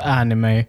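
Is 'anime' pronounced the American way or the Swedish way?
American. The word is pronounced with an American accent. "den amerikanska versionen utav så anime"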